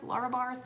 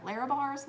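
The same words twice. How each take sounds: First: "Lara" with an open LAR, as in lar-uh; pronunciation option. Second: "Lara" with LAIR, as in lair-uh; pronunciation option. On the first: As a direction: say "Lara" with a rounder AH, not LAIR. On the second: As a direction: say "Lara" to rhyme with Sarah. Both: Shown as a demonstration. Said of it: "pronounce that Lara or Lara?".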